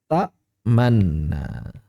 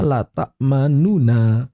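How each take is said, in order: First: "ta'manna" very slow and low, the n held long; bentuk idgham. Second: "la ta'manuna" slowly, both nun syllables separate; bentuk asli. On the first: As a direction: hold the doubled nun in "ta'manna". (lafalkan "ta'manna" dengan nun ganda ditahan) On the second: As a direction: give "ta'manuna" its full nu-na ending. (lafalkan "la ta'manuna" perlahan dengan dua nun terpisah) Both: Shown as a demonstration.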